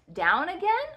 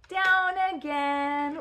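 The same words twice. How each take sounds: First: "again" lifted high in a question. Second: "Down again" stretched slowly, no questioning lift; drawn-out announcement. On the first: Asking the child about another slide, rising question. Question take, then announced take. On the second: Sending the toy car down, drawn-out announcement. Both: Pretend.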